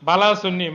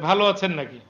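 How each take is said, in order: First: It is said in the Chittagonian dialect. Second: It is said in standard Bengali pronunciation. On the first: "দুর্বোধ্য মনে হলো" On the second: "মানে"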